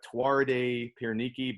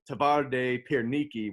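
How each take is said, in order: First: The first word begins with a W sound. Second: The first word begins with a V sound. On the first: The speaker calls it wrong. "It looks like Tuarde Pierniki" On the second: The speaker calls it right. "the W's are V's, so they pronounce it Tavarde Pierniki"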